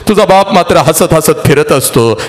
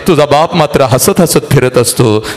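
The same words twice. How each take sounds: The two takes are said the same way.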